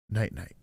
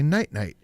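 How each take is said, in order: First: Low, understated imitation of a small child; tired little kid. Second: Louder retold good night; own reply to kid. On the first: Tired little boy says good night, low imitated voice. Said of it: "look at me right in the eye and go". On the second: Teller answers a tired little boy, louder retold reply. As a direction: say it back to a small child, raised level. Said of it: "And I would say".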